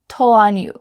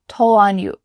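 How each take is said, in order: No difference in how they are said.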